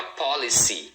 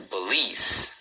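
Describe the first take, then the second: First: "policy" as POL-i-see, three syllables; "policy" stressed on POL with a final EE sound; misread spelling. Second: "police" with long EE and a final S, no vowel after; stress on second syllable. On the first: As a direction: read out every letter, "policy" ending in SEE. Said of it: "acaba lendo as letras". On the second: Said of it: "a segunda é a mais forte". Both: Shown as a demonstration.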